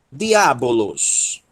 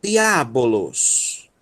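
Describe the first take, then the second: First: "Diabolos" read slowly with clear vowels; slow modeling. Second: "Diabolos" drawn out slowly, di-a-bo-los; slow syllable by syllable. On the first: Teacher repeating "Diabolos" slowly for class. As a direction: pronounce "Diabolos" slowly and evenly. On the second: Teacher slowly spelling out "Diabolos" for students. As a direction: stretch out every syllable of "Diabolos". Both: Shown as a demonstration. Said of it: "teacher repeats slowly".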